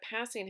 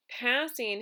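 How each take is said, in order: First: Said in the usual way. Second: "passing" split into two beats; syllable by syllable. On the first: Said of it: "passing has two syllables in it". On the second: Shown as a demonstration. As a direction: show both syllables of "passing" separately. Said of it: "passing has two".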